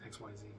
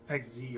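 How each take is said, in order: First: All three letters are spoken in full. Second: The middle letter Y is left out. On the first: This is the speaker's preferred name. "I just like to say X Y Z" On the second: This is the official name. "it sounds like you're saying X Z and you're and you're leaving out the Y"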